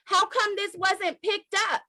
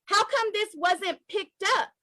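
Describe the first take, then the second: No difference in how they are said.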